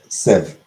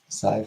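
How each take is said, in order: First: The vowel does not rhyme with five. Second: The vowel rhymes with the word five. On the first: The speaker calls it right. "I'm pretty sure it's pronounced sieve" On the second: The speaker calls it wrong. "sieve like five"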